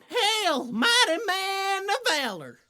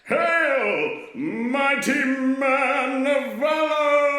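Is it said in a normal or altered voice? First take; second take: normal; altered. First: It is said in his normal voice. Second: It is said in an altered, angel-like voice.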